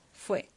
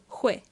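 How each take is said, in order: First: The word begins with an f sound. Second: The word begins with a breathy h-like sound.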